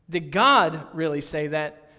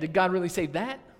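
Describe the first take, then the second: First: The emphasis falls early in the question. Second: The emphasis falls at the end of the question. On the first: It questions whether these are really God's words. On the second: It questions whether God really meant that.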